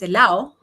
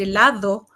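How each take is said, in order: First: A consonant is dropped from the word. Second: All the consonants are clearly pronounced. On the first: This is how it is said in Chile. The speaker calls it right. "sino dices" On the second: This is how it is said outside Chile. The speaker calls it wrong. "en Chile tú no puedes decir"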